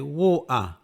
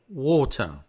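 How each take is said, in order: First: The middle t is a glottal stop. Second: The middle t is fully pronounced.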